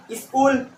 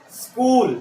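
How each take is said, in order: First: "स्कूल" said as "iskool"; wrong added vowel. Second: "स्कूल" opening straight on s, no vowel before it; correct initial s. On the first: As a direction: put a short i before the s in "स्कूल". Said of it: "इसे क्या बोलोगे?". ("स्कूल" को "इस्कूल" की तरह) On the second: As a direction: model "skool" for "स्कूल" with a clean hissed s. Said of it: "स्कूल, no". ("स्कूल" सीधे आधे स से) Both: Shown as a demonstration.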